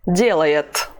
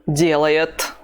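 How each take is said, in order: No difference in how they are said.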